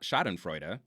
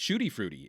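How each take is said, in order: First: The word sounds like standard 'schadenfreude'. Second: The word sounds like 'shooty fruity'. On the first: The speaker calls it right. "It's not Schadenfreude" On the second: The speaker calls it wrong. "it's it's it's Shooty Fruity"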